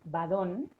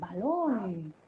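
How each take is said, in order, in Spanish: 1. La consonante del medio es un sonido d. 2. La consonante del medio es un sonido l. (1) "badón, eh, por balón" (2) "pronunciamos muy bien"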